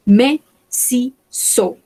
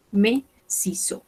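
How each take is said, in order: First: Slow, syllable-by-syllable "Me ciseaux", no final S or X; silent final letters. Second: Softer, quicker repeat of "Me ciseaux", no final S or X; silent final letters. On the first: Teacher shows learners silent letters, slow careful model. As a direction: say "Me ciseaux" slowly, dropping written S and X. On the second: Teacher repeats for learners, soft, silent letters. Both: Shown as a demonstration. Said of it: "no pronunciamos la S de acá".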